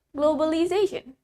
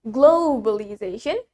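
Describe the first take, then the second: First: Globalization with a short, light "glo"; American quick-vowelled globalization; American pronunciation. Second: Globalization with a stretched "glo"; British pronunciation. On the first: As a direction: say "globalization" compactly, American style. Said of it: "In American English". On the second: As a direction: lean long on the first syllable of "globalization". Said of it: "in British English, we pronounce it as". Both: Shown as a demonstration.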